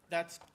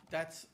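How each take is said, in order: Both takes have the same delivery.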